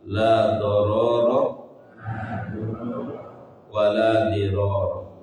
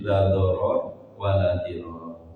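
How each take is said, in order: First: The final vowels of each word are pronounced. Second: The final vowels of each word are dropped.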